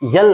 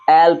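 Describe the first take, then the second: First: It begins with a y sound. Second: It begins directly with a vowel. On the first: The speaker calls it wrong. "यल नहीं" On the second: The speaker calls it right. "इसे एल पढ़ते हैं"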